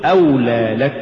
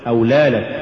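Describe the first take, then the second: First: أولى لك with stress on أولى and لك kept distinct; correct word boundary. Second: أولى لك run together in one short word; wrong word boundary. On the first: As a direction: give أولى its full shape before لك. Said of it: "قل". (نطق «أولى لك» بحدود صحيحة) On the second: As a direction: squash لك onto أولى. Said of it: "ولا تقل". (دمج «أولى لك» في كلمة واحدة) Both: Shown as a demonstration.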